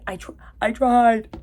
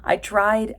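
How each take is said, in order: First: Mock tearful movie line, pitched up; hammed-up anguish with an odd accent; Teresa. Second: Said in the usual way. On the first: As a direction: imitate an overwrought dying-scene plea. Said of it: "the way she said that was so weird".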